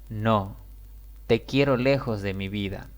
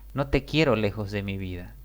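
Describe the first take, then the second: First: There is a pause after the word no. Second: It runs on without a pause after no. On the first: The speaker wants the listener far away. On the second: The speaker wants the listener close.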